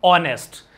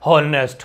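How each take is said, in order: First: "ऑनेस्ट" with the H silent; correct pronunciation. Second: "हॉनेस्ट" with a loud, sounded H; wrong pronunciation. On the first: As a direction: open "ऑनेस्ट" on a clean O vowel. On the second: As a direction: lean on the mistaken H in "हॉनेस्ट". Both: Shown as a demonstration. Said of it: "हॉनेस्ट नहीं करना है".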